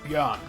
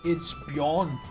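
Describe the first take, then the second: First: The vowel is a rounded Danish Ø sound. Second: The vowel is a plain English O sound. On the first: "That's how you pronounce it" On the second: "With the O"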